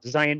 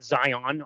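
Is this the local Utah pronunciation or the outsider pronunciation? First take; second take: local; outsider. First: It is pronounced the way Utah locals say it. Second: It is pronounced the way outsiders say it. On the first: The speaker calls it right. "everybody in Utah pronounces it Zion" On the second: The speaker calls it wrong. "A lot of people from outside of Utah will say Zion"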